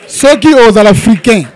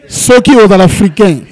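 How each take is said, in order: Both takes have the same delivery.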